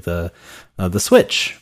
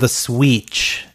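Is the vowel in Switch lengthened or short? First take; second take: short; lengthened. First: The vowel in Switch is short and normal. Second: The vowel in Switch is drawn out longer.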